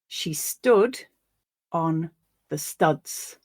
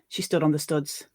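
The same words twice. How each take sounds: First: It is read in a less Northern English accent. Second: It is read in a more Northern English accent.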